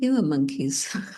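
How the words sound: It is said gently, in a loving tone.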